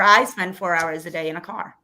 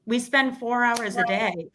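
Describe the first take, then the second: First: "I" stressed as a correction. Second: Said in the usual way. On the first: Real, not acted. Mother corrects herself on who drives, stress on "I". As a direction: put the weight on "I".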